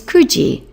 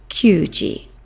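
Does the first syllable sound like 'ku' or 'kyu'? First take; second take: ku; kyu. First: The first syllable is a plain ku. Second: The first syllable has a y glide. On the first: The speaker calls it right. "which is kuji" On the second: The speaker calls it wrong. "not kyuji"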